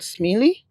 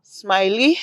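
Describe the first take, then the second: First: Smiley with an "ee" in the first syllable; SMILEY as "SMEE-lee". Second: Smiley with a long "i", as in smile; SMILEY as "SMY-lee". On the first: Vlogger trying a school's name, Smiley said "smee-lee". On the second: Vlogger settling a school's name, Smiley said "smy-lee". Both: Shown as a demonstration. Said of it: "Is it Smiley or Smiley?".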